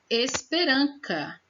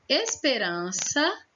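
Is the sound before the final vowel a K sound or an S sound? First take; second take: K sound; S sound. First: The consonant before the last vowel sounds like K. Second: The consonant before the last vowel sounds like S.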